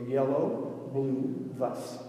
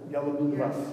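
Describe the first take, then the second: First: The three words are said separately. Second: The three words are run together quickly.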